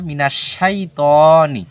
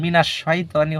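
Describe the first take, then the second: First: The vowel after t is lengthened. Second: The vowel after t is short. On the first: The speaker calls it right. "এখানে লম্বা হবো তনি" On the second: The speaker calls it wrong. "এটা মিনাশ শয়তানি হবে না"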